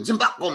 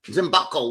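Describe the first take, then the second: First: Higher, singsong Zimbako, lilting high on the first syllable; imitating a Filipina. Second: Said in the usual way. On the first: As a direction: call out Zimbako the way she did. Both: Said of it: "What does that mean?".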